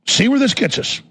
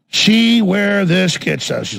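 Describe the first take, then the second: First: Higher-pitched, pointed dare; raised challenge. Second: Very slow, drawn-out warning; slow ominous repeat. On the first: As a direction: toss it out as a challenge. Same words said higher, then slower. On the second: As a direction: stretch each word out deliberately. Repeats the words slowly for effect. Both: Real, not acted.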